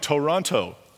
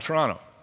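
First: Toronto is pronounced the way newcomers say it. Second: Toronto is pronounced the way locals say it. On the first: The speaker is new to the city. "You can always tell people new to the city" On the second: The speaker is from the city. "we're from here"

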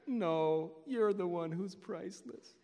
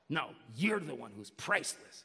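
First: It sounds warm and friendly. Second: It sounds hostile and challenging.

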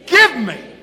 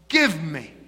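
First: It is said forcefully, like a demand. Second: It is said plainly, without feeling.

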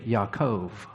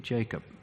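First: The name begins with a y sound. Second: The name begins with a j sound. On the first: This is how a Hebrew speaker says the name. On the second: This is the usual English form of the name.

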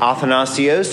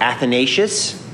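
First: The name is said the non-Western way. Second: The name is said the Western way.

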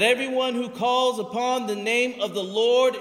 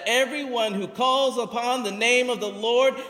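First: It is said in a calm, plain reading voice. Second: It is said with strong, forceful, powerful energy.

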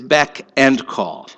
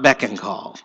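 First: The word 'and' is said as a separate word. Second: The words blend into 'beckon call'. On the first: The speaker calls it right. "the last one is beck and call" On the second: The speaker calls it wrong. "not beck and call"

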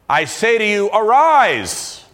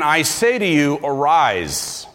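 First: It is said loudly, with a raised voice. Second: It is said at normal, quiet volume.

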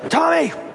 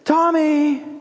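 First: The name is called in a sharp, angry tone. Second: The name is called in a warm, happy tone. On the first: The person is in trouble. "a terrible experience" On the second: The caller is pleased with the person. "a joyful experience"

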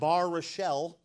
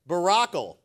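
First: The name's middle sounds like 'rochelle'. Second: The name's middle sounds like 'rack'. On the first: The speaker calls it wrong. "It's not Bar Rochelle" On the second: The speaker calls it right. "That's how it's actually pronounced"

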